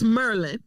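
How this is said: The name is shortened to two syllables. It is said the way locals say it. "It's Merlin. There's no why"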